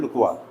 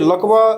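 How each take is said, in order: First: The first vowel is a rounded 'oo' sound. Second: The first vowel is a short open 'uh' sound. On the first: It is the name of the tea. The speaker calls it right. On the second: It sounds like the word for paralysis. The speaker calls it wrong. "लकवा वाला बात नहीं है"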